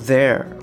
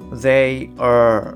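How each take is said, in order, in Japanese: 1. 1音節に弱まり、there のように聞こえます。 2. 両方とも、しっかり別々に発音します。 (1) "ほとんどthere っていうような…発音になってる" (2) "我々のイメージだとthey are っていう感じがする"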